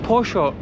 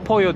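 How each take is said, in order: First: The double L is sounded like sh. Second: The double L is sounded like a y. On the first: This is how people in Buenos Aires say it. "burada poşo diyorlar... Ş olarak okuyorlar" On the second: This is the usual Spanish way. "iki tane L yan yana geldiği zaman Y olarak okunuyor"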